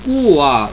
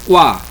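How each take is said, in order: First: The u is a full separate vowel. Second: The u is a brief glide into a. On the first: The speaker calls it wrong. "Eu não digo cuá" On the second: The speaker calls it right. "eu digo quá. Então ele é breve"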